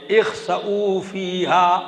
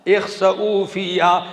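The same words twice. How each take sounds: First: Slow melodic Quranic chant; chanted, draw the verse out in song. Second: Said in the usual way. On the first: Shown as a demonstration. Preacher chanting God's rebuke to congregation, slow melodic. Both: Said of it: "کیا؟".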